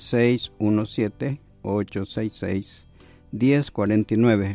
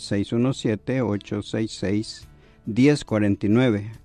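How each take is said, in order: First: The number is said slowly. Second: The number is said fast.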